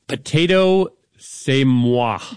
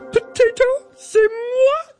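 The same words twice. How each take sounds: First: It is said in a normal reading voice. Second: It is said in a Miss Piggy voice.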